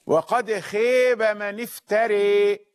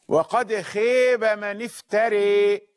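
First: The long vowel is bent toward 'ee'. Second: The long vowel is bent toward 'ee'.

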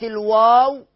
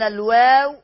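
First: The w sound is heavy and full. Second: The w sound is thin and light. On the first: The speaker calls it wrong. "وليست الواو" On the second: The speaker calls it right. "أن الواو مرققة دائما"

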